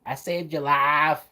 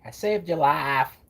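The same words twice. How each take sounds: First: Slow Mississippi accent, lightly imitated; a light Mississippi accent impression. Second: Slow, drawn-out Mississippi accent imitation; a light, slow Mississippi accent impression. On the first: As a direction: copy Rogue's Mississippi accent again. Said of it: "they did try to have her with an accent". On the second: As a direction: mimic Rogue's Mississippi drawl. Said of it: "the way Rogue talks with that accent".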